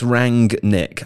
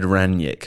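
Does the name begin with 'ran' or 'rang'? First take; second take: rang; ran. First: The first syllable ends in an ng sound. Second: The first syllable has no ng sound. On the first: The speaker calls it right. "It's Rangnick. I rang my friend Nick" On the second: The speaker calls it wrong. "I said Ranić for a little bit at the beginning, yeah? And I was wrong"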